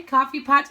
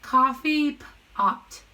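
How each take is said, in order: First: Said in the usual way. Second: Coffee pot stretched slowly, word by word; slowly sounded out. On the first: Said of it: "normal after sounding out". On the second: Shown as a demonstration. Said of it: "let's sound it out together".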